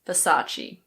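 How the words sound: It is said with a British English pronunciation. "But in British English, we say Versace"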